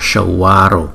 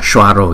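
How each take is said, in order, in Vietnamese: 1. Từ này được đọc chậm. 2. Từ này được đọc nhanh. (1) "nhưng mà là Shwaro" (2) "Chúng ta đọc nhanh là Shwaro"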